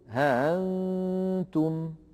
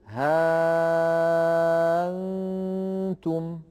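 First: The hamza is softened between stop and vowel. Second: The hamza becomes a very long vowel. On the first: This is another accepted reading of Warsh. "يسهل هذه الهمزة" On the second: This is one accepted reading of Warsh. "يبدلها ألفا وبعدها نون ساكنة، فيتولد أيضا مد لازم"

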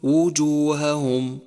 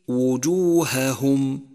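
First: The two h sounds are blurred together. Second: The two h sounds are clearly separated. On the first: The speaker calls it wrong. "وحاذر أن تقول" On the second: The speaker calls it right. "فيجب فصل الهاء الأولى عن الثانية من غير تمطيط"

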